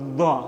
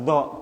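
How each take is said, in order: First: The tongue tip is held between the teeth. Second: The tongue's sides press against the back molars. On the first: "yang Al-Kisai tadi itu do ... Sama dengan dal, sama dengan sa. Digigit" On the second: "pinggir pinggir lidah ini ketemu dengan geraham yang belakang ini"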